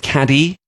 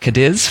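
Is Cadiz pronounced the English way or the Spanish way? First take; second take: Spanish; English. First: The name is pronounced with a Spanish pronunciation. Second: The name is pronounced with an English pronunciation. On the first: The speaker calls it right. "I was informed reliably that it is Cadiz" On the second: The speaker calls it wrong. "spelt Cadiz for us English people who can't pronounce it properly"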